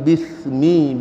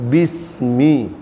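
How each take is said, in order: First: "bismi" with the s lisped as th; tongue between the teeth on the s of "bismi"; lisped wrong pronunciation. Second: "bismi" very slowly, with a clean hissed s; low, stretched "bismi" with a crisp s; correct pronunciation. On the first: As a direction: say "bismi" as "bithmi", a demonstrated mistake. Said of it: "itu bukan bismi bacanya". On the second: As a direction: model "bismi" drawn out, s not th. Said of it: "bacanya tapi bismi". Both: Shown as a demonstration.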